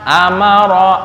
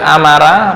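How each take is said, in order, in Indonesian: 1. Suku kata terakhir berakhir dengan bunyi 'o' yang tebal. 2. Suku kata terakhir berakhir dengan bunyi 'a' yang tipis. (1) "tapi amaro" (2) "bukan amara"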